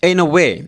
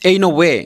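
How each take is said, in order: No difference in how they are said.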